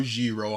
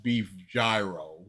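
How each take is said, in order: First: "gyro" said ZHEE-ro, soft zh and long ee; ZHEE-ro pronunciation. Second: "gyro" said JAI-ro, starting like "giant"; JAI-ro pronunciation. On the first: Host offering the other way to say the dish, "gyro" as ZHEE-ro. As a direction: say "gyro" as ZHEE-ro, rhyming with "hero". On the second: Host offering one way to say the dish, "gyro" as JAI-ro. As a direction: say "gyro" as JAI-ro, with a hard English J. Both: Shown as a demonstration. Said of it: "people say it in different ways".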